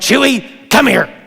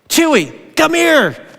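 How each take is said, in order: First: It is said in an angry tone. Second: It is said in a friendly tone.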